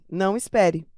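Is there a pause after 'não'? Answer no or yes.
no. The two words run together without a pause. The listener is told not to wait. "se eu escrever assim, não espere, mudou o sentido"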